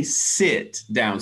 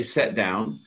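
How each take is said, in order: First: "sit down" with a clear short i; "sit" said with a short i, not an e; careful standard "sit down"; proper sit down. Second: "sit down" said as "set down"; casual "sit down" with an e vowel; informal set down. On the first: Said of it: "you would say". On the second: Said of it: "people say". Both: Shown as a demonstration.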